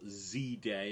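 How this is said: The letter Z is said the American way.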